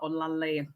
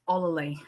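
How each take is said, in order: First: The name is said with its native pronunciation. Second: The name is said with an American pronunciation. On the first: The speaker calls it right. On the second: The speaker calls it wrong.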